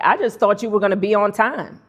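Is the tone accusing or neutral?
accusing. The tone sounds pointed and accusing. The listener is being criticized. "Those are two different messages"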